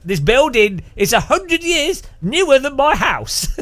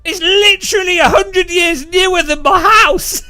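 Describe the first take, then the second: First: Raised, high-pitched British objection; indignant protest. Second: High, loud mock outrage; exasperated shout. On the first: Retold or imitated. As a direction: protest in mock disbelief, voice pitched up. British visitor protesting to tour guide. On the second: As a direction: yell it in comic disbelief. Acted exasperated reply to awed tourists.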